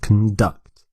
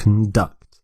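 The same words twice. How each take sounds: First: The stress is on the second syllable. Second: The same.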